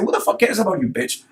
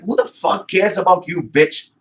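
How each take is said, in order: First: Serious angry repeat. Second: High, scornful retort; retold angry retort. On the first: Real, not acted. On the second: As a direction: fling the insult back at her. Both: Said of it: "Yeah, I seriously say".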